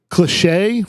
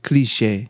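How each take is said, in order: First: Cliché said as "lishay", dropping the first sound; mispronounced. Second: Cliché said as "klee-SHAY" with a clear k; correct pronunciation. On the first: Real, not acted. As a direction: say Cliché as "li-SHAY" with the k sound missing. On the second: Shown as a demonstration. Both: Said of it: "it's pronounced cliché".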